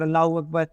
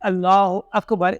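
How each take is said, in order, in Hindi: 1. यह वाक्य जल्दी-जल्दी और हड़बड़ी में कहा गया है। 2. यह वाक्य धीरे और सावधानी से कहा गया है। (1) "जल्दबाजी में नहीं कहना" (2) "इस तरीके से कहना है"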